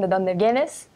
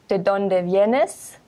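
First: It is said a bit faster. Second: It is said at a normal pace.

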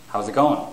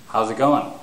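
No difference in how they are said.

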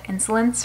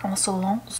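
First: It is pronounced with an English accent. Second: It is pronounced with a French accent. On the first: "I'm going to be calling it Insolence for now" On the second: "the French pronunciation of this is more like Insolence"

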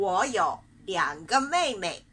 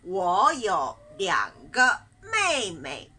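First: The sentence is said at a faster pace. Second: The sentence is said at a slower pace.

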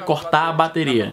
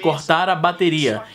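First: The sounds are run together more loosely. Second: Each sound is pronounced carefully and distinctly. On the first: This is how it was said in the past. "E na época" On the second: This is how it would be said today. "É assim que eu falaria hoje"

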